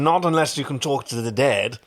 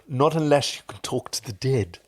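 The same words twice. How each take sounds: First: It is said in a plain, ordinary voice. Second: It is said in a Severus Snape impression.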